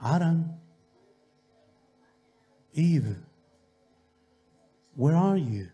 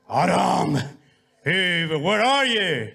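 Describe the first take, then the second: First: It is called in a gentle, loving tone. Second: It is called in a harsh, angry tone.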